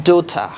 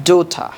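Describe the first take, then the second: The two takes are said the same way.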